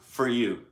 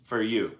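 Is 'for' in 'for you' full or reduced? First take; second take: reduced; reduced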